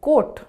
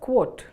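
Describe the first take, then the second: First: The word starts without a K sound. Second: The word starts with a K sound. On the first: The speaker calls it wrong. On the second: The speaker calls it right.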